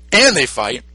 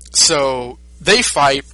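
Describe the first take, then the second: First: Said in the usual way. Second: Slow, stretched telling of the fight; slowly, for comic length; drawn-out. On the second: Retold or imitated. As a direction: draw it out to show it drags on.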